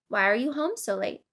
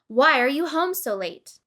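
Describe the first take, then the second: First: The question sounds curious and genuinely wondering. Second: The question sounds angry and accusing. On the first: The asker sincerely wants to know the reason. "To show curiosity, you might say" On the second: The asker is unhappy about what the other person did. "while imagining that you're angry"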